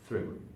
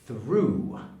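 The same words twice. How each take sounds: First: The vowel is short with level pitch. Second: The vowel is stretched with an up-down pitch. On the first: The word is not especially important. "which is the normal way" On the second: The word is important. "the pushed way, or the stressed way"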